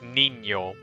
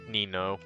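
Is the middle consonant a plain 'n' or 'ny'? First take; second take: ny; n. First: The middle consonant is a palatal 'ny' sound. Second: The middle consonant is a plain 'n' sound. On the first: "would had an Enya in it, then it would be pronounced Nino" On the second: "instead of Nino"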